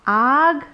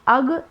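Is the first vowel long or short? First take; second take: long; short. First: The first vowel is long, mouth fully open. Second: The first vowel is short, mouth not fully open. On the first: The speaker calls it right. "पूरा मुंह खोल के बोलेंगे आ" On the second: The speaker calls it wrong. "अगर आ नहीं बोलेंगे पूरा मुंह खोल के तो आप अम, अग इस तरह से बोलना पड़ेगा"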